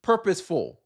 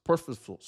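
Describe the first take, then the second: First: Fix "purposeful", saying every syllable; corrected word. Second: "purposeful" clipped to "purpa", the end swallowed; botched word. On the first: Vlogger correcting himself, saying "purposeful" fully and clearly. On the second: Vlogger fumbling "purposeful" mid-sentence, slurring it into "purpa". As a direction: trip over "purposeful" and cut it short. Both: Real, not acted.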